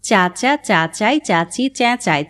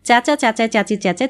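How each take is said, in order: First: It is spoken slowly. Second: It is spoken very fast. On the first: "প্রথমে ধীরে" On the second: "তারপর আরও দ্রুত।"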